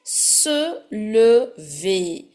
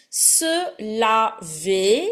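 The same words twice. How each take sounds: First: Very slow "lever", syllable by syllable, rounded "uh" first; showing the difference. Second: Very slow "laver", syllable by syllable, open "ah" first; showing the difference. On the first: Teacher showing students the difference, slow rounded "uh" in "lever". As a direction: stretch "lever" apart with a clear schwa in "le". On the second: Teacher showing students the difference, slow open "ah" in "laver". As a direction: stretch "laver" apart with a clear "la". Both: Shown as a demonstration. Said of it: "See the difference".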